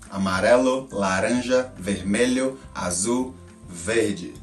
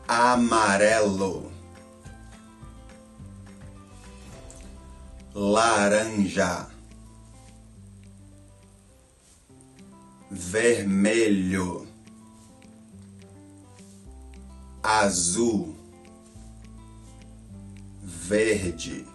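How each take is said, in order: First: The colors are said quickly in a row. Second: The colors are said slowly with long gaps.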